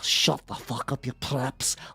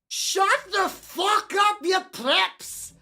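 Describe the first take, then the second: First: The line is said quietly, without shouting. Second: The line is shouted very loudly. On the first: The speaker calls it wrong. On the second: The speaker calls it right.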